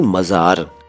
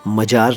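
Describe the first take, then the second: First: The middle consonant is a 'z' sound. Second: The middle consonant is a 'j' sound. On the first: The speaker calls it right. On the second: The speaker calls it wrong. "मजार नहीं"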